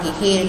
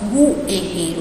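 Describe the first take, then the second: First: No 'w' sound follows the first consonant. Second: A 'w' sound follows the first consonant. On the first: The speaker calls it right. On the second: The speaker calls it wrong.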